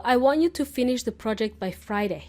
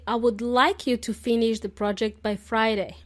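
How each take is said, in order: First: "want" said firmly as a bossy order; demanding. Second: Courteous request with "like" stressed; polite. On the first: A boss telling a colleague the deadline, demanding. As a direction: give it like a boss insisting. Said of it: "it sounds very demanding". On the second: A manager asking a colleague politely. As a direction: ask it politely, not demanding. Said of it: "The correct way would be to say". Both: Shown as a demonstration.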